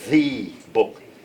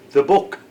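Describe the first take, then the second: First: The word 'the' has a full, unreduced vowel. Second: The word 'the' has a reduced schwa vowel. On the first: The speaker calls it wrong. "You don't say the book" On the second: The speaker calls it right. "That's the schwa"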